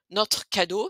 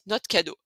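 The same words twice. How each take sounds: First: Notre is said without its final e. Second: Notre is said without its final r and e. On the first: The speaker calls it wrong. "si vous voulez pas prononcer le E" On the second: The speaker calls it right. "on va carrément enlever le R aussi"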